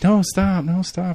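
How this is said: It is said playfully, in a flirty tone.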